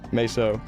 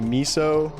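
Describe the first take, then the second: First: The word rhymes with peso. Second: The word sounds like the soup, miso. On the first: This is the way the speaker says it. "I go with uh, meso ... taking peso and putting an M instead of a P" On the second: Some other people say it this way. "I've heard some people say miso"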